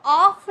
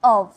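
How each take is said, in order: First: "of" wrongly said like "off", ending in f; mispronounced "of" as "off". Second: "of" said as its own word, distinct from "off"; correct pronunciation of "of". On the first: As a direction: say "off" as the mistaken reading of "of". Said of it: "इसको off नहीं बोला जाता". ("of" का गलत उच्चारण, "off" जैसा) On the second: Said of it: "इसकी pronunciation की जाती है". ("of" का सही उच्चारण, "off" से अलग) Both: Shown as a demonstration.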